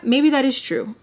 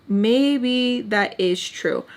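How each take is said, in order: First: Said in the usual way. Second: Drawn out, word by word; slow pondering. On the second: Retold or imitated. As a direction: let it sink in slowly. Retold self-talk, slowed repeat.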